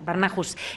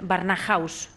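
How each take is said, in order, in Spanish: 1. El final suena como 'hoos', sin diptongo. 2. El final suena como 'house' en inglés. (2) "a ver si lo digo bien"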